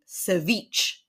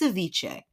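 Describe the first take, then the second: First: The word ends so it rhymes with niche. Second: The word ends so it does not rhyme with niche. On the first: The speaker calls it wrong. "Like niche" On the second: The speaker calls it right. "It's ceviche"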